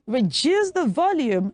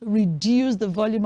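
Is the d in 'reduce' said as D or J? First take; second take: J; D. First: The d in reduce sounds like j. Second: The d in reduce sounds like d. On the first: The speaker calls it right. "So we say reduce the volume" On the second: The speaker calls it wrong. "not reduce the volume"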